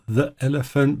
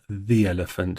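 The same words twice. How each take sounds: First: The word 'the' is said with a short uh vowel. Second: The word 'the' is said with a long ee vowel. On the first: The speaker calls it wrong. "not the elephant" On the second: The speaker calls it right. "we speak it as if it had two"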